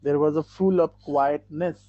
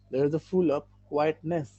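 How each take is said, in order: First: Very slow and louder, words spaced out; slow, louder model reading. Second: Very slow repeat at a gentler level; slow, softer repeat. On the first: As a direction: read it slowly and clearly to the class. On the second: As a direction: say it again slowly and more softly. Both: Shown as a demonstration. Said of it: "quietness".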